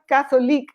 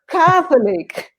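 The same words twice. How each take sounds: First: The stress falls in the Spanish-like place. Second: The stress falls in the English place. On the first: The speaker calls it wrong. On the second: The speaker calls it right.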